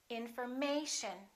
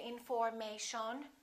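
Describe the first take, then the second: First: The stress is on the third syllable. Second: The third syllable is not the stressed one. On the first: The speaker calls it right. "the most stressed syllable right here, the A" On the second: The speaker calls it wrong. "We don't say information"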